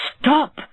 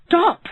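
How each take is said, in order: First: Shouting stop. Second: Even higher, louder desperate yell; louder shout. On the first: Neighbour cries out to the rich man, shouting. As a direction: shout to halt the beating. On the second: Neighbour yells harder at the rich man, louder shout. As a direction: scream it, escalating. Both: Acted.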